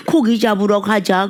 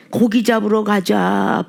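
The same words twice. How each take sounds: First: Said in the usual way. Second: Slow, spiritless mock sigh of a line; deflated. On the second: Lightly voiced disheartened disciples going fishing, deflated. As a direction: say it like all the fight has drained out. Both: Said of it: "풀이 쭉 빠졌고".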